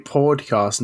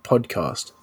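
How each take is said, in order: First: Podcast with a rounded aw vowel like pod; Australian podcast. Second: Podcast with an open flat ah vowel; American podcast. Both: Shown as a demonstration. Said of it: "So it's meant to be podcast, not podcast".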